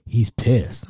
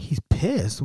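First: Said in the usual way. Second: Retold disbelieving question; questioning echo. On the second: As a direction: echo it back as a puzzled question. Teller echoes it back, questioning.

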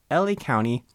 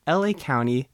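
Both takes have the same delivery.

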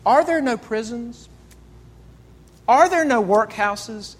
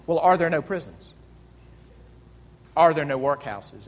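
First: The ghost quoting Scrooge back to him, accusing; ghost's rebuke. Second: Scrooge, dismissive. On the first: Acted. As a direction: throw Scrooge's own words back at him. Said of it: "the ghost looks at him and says". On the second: Retold or imitated. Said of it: "And he asked them".

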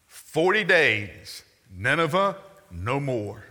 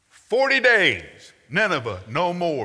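First: Slow, drawn-out prophet's warning; solemn slow proclamation. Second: Much higher and louder, slow prophet's cry; booming proclamation. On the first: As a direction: let each word fall heavily like a doom sentence. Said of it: "Here's his whole sermon". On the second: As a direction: thunder it out over the whole city. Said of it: "That's his whole sermon". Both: Shown as a demonstration.

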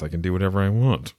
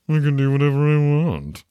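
First: Said in the usual way. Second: High, loud, held-up playful proclamation; hammed-up, loud, high-pitched boast; mock triumphant declaration. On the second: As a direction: belt it out in mock defiance.

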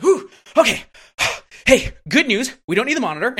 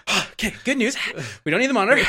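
First: High, loud mock-cheerful sigh, then fake good news; sarcastic and patronizing. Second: A milder replay of the smug sigh and the fake good news; patronizing retake, higher but toned down; sarcastic and patronizing. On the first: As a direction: patronize the kid with a higher, louder bright tone. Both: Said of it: "so sarcastic and patronizing".

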